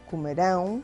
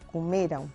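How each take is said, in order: First: The stress is on the last syllable. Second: The stress is on the second-to-last syllable. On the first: It refers to a future action. "na primeira recai a acentuação na última sílaba" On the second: It refers to a completed past action. "no pretérito perfeito recai na penúltima sílaba"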